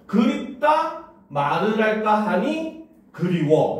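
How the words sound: It is read smoothly, grouped naturally.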